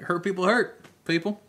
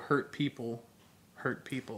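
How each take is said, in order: First: There is a pause after the second "hurt". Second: There is a pause after the first "people".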